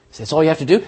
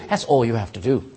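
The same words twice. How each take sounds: First: Rising, doubtful "So that's all you have to do?"; surprised question. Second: "That's all you have to do." lower and settled; firm answer. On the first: Preacher voicing the congregation's doubt, asked as a question. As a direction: ask "do" with a disbelieving lift. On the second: Preacher answering the congregation's doubt, low and firm. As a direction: answer his own question with calm certainty. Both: Shown as a demonstration.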